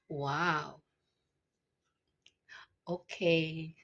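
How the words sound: It sounds flirty.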